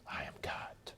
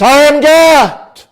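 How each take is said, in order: First: It is whispered softly. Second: It is said loudly and resonantly.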